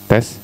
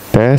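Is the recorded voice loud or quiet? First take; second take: quiet; loud. First: The voice is recorded at a low level. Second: The voice is recorded at a high level. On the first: "saya kecilin" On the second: "saya kencengin"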